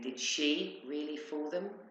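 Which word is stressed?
she. The stress falls on the word she. It questions whether that particular person did it. "As in her, really?"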